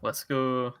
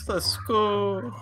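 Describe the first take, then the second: First: It is said in a normal speaking voice. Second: It is said in a put-on baby voice.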